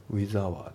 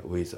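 First: WITH HOUR as "wizu awaa"; katakana-style, WITH and HOUR kept separate; unlinked words. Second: WITH HOUR run together as "wi-za"; linking. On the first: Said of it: "じゃなくて". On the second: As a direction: glide from WITH into HOUR as one word. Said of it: "リンキングで". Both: Shown as a demonstration.

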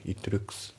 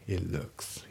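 First: "It looks" as katakana-style "itto rukkusu"; "It looks" word by word, t released; T fully sounded. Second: "It looks" said as "i'looks"; "It looks" with no audible t; dropped T. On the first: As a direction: say "It looks" with a clear separate t. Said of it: "It looksじゃなくて". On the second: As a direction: swallow the t of "It" straight into "looks". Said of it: "itのTがね". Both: Shown as a demonstration.

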